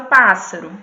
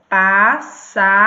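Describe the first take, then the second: First: Said in the usual way. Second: "Pássaro" said louder and slowly, the first syllable "pá" stretched and punched; stressed syllable drawn out. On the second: Shown as a demonstration. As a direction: call out "Pássaro" slowly, leaning hard on the "pá". ("Pássaro" dito devagar e mais alto, com o "pá" bem alongado e forte) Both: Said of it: "qual seria a sílaba tônica dela?".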